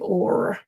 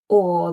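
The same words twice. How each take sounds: First: The word ends with a clear R sound. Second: The word ends without an R sound. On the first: This is the rhotic North American accent. "they'd say or, which I, you know sounds unnatural when I say it" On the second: This is the non-rhotic southern English accent. "so they wouldn't say or"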